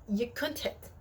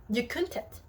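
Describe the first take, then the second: The two takes are said the same way.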